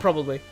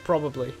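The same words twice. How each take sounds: First: The syllables are squeezed together quickly. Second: Every syllable is pronounced fully and clearly. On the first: "when you say probably at, at speed, like" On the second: "it's like how you write probably, but no, barely anyone says probably"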